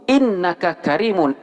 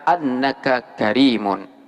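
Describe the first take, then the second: First: The first word begins with an 'i' vowel. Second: The first word begins with an 'a' vowel. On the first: The speaker calls it right. "hamzah daripada innaka di sini wajib dikasrokan" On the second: The speaker calls it wrong. "tidak boleh dibaca"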